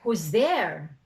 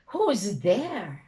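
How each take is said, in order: First: It is asked in a calm neutral tone. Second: It is asked in a worried anxious tone. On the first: It is just a question. "You're just asking" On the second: The asker is afraid. "you're worried"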